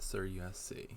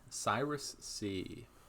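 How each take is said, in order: First: The name is said as four syllables. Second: The name is said as three syllables. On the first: "not Sir U S C" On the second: "I've always been pronouncing that Cyrus C"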